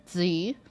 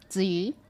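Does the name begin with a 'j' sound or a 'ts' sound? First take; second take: ts sound; ts sound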